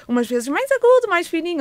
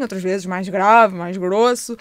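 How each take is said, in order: First: Thin, raised little voice; high-pitched. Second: Deeper, slower voice; low-pitched. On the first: Therapist showing parents pitches for baby, high-pitched. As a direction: lift the voice well up high. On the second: Therapist showing parents pitches for baby, low-pitched. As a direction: drop the voice down low. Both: Shown as a demonstration. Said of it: "com frequências".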